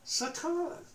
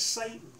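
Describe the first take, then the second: First: It is said with Hebrew pronunciation. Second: It is said with English pronunciation. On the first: The speaker calls it right. "The word oppose is in the Hebrew" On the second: The speaker calls it wrong. "usually mispronounced in English as Satan"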